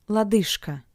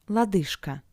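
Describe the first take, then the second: The two takes are said the same way.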